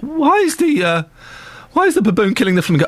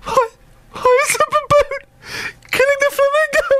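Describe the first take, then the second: First: Imitating a small boy beginning to fret; mildly upset child's question, starting high; child getting upset. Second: Imitating a sobbing little boy, very high squeak; mock tearful wail in a tiny high voice; upset child. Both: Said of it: "the boy's starting to get upset".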